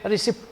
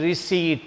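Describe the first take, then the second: First: The p sound is pronounced. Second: The p sound is silent. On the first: The speaker calls it wrong. "We should not say receipt" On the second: The speaker calls it right. "P is silent. Uh, this is, it should be pronounced as a receipt"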